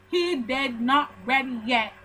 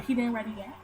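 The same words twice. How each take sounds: First: "did not" spelt out slowly, each word separate; slow, deliberate "He did not ready yet"; emphatic word-by-word. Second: Said in the usual way. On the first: Shown as a demonstration. Telling viewers about the coworker, emphatic, each word of "did not ready yet" apart. Same phrase restated word by word.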